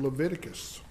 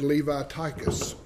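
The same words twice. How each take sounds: First: It is said in the speaker's plain style. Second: It is said in an imitated Southern US style.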